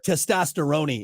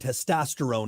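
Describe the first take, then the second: First: Italian-style, with the final E pronounced. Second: Plain English, with the final E silent.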